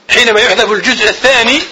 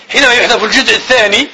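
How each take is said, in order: Both takes have the same delivery.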